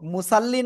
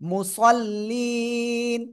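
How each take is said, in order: First: The word ends on a vowel without n. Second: The word ends with a clear n sound. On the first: The speaker calls it wrong. "আমরা অনেকে বলি এই মুসাল্লি" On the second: The speaker calls it right. "মুসাল্লি না, মুসাল্লিন"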